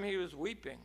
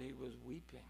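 First: Said in the usual way. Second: Much softer, almost breathed; hushed. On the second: Shown as a demonstration. Preacher to the congregation, hushed and grave. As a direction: let it fall to a hush. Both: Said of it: "when I looked close".

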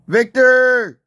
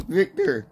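First: Loud, higher drawn-out yell; calling out. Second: Said in the usual way. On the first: Real, not acted. Player calling his teammate, loud high holler. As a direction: holler the name for someone far away.

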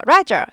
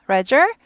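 First: Loud Roger with a falling tone; angry calling. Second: Roger with a rising tone; kindly calling. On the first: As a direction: call Roger sharply downward, as if cross. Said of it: "그럼 화가 난 거예요". (화난 듯 Roger를 내려서 부르기) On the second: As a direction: call out Roger kindly, lifting the end. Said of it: "친절하게 이렇게 부른다 그랬죠". (친절하게 Roger 끝을 올려 부르기) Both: Shown as a demonstration.

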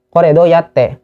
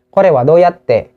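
First: Said in the usual way. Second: Each syllable slowly drawn out for learners; slow demo. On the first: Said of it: "teacher repeats phrase at normal speed". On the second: Shown as a demonstration. Teacher to viewers, saying the phrase very slowly. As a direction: Kore wa doyatte said very slowly, syllable by syllable. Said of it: "teacher demonstrating phrase slowly".

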